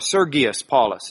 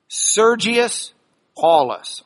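First: The name is said in a classical way. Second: The name is said in an anglicized way.

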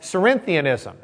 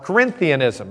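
First: The word begins with a soft S sound. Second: The word begins with a hard K sound.

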